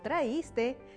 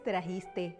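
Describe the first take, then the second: First: The word has no consonant before the i. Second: The word has a raspy consonant before the i. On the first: The speaker calls it wrong. "no traíste ... al omitir la J" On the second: The speaker calls it right. "El término correcto es trajiste"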